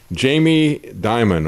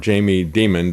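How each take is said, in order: First: The surname is said in its usual way. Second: The surname is said like the word demon.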